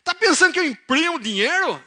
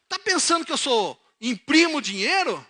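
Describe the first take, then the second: First: Put-on high, loud Piracicaba accent, indignant. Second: High, loud, exasperated outburst; indignant father. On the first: Father fuming over a money request, thick Piracicaba accent. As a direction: caricature an angry Piracicaba farmer. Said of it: "Ele era mais piracicabano". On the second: Acted. Father fuming over a request for money, indignant. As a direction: fire it out in mock outrage, usual accent. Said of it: "ele não falou assim".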